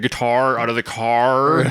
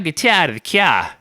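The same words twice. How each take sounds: First: It is said with strong R sounds. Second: It is in a Boston accent, R sounds dropped. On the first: "You throw too many R's in there" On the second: "I don't know if they if it was a Boston accent"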